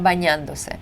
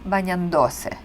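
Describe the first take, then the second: First: The stress falls on the syllable 'dan'. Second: The stress falls on the syllable 'do'. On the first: The speaker calls it right. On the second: The speaker calls it wrong.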